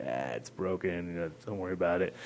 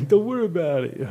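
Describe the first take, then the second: First: Mock casual. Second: Much louder and higher through laughter; laughing, hammed-up brush-off; laughing repeat. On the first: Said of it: "I kinda was just gonna go on that, like". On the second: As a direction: blurt it out again, cracking up.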